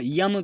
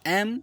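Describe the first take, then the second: First: It starts with a y sound. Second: It starts with a vowel sound. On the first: The speaker calls it wrong. "लोग एम यम करते हैं, यम नहीं होता" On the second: The speaker calls it right. "यम नहीं होता, एम एम"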